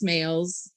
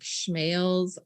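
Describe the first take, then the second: First: The name begins with a plain 's' sound. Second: The name begins with an 'sh' sound. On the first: The speaker calls it right. "so it is Smales" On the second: The speaker calls it wrong. "people like to put a C H"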